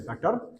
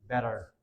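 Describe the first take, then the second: First: It is said in a Pakistani accent. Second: It is said in an American accent. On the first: "Normally in Pakistani accent we will say better" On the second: "in American accent, the t sound is converted"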